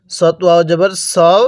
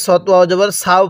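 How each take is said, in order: First: "সও" with a rounded, full "o" vowel; correct letter pronunciation. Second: "সাও" with an open "aa" vowel; incorrect letter pronunciation. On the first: Teacher models the proper reading, "সও" with rounded vowel. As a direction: say "সও" as "saw-o", not open "saa-o". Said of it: "তাহলে কিভাবে পড়তে হবে?". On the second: Teacher shows learners a common misreading, "সাও" with open aa. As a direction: say "সাও" as thin "saa-o", not rounded "so-o". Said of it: "পড়াটা সহি শুদ্ধ হবে না". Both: Shown as a demonstration.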